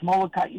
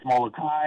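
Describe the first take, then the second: First: "Molokai" as mo-lo-ka-EE; separate, higher EE closing "Molokai". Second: "Molokai" as mo-lo-KAI, like "sky"; one-syllable "kai" closing "Molokai"; Molokai ending in kai. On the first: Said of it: "others who say it's Molokai". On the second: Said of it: "say it's Molokai and others who say". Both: Shown as a demonstration.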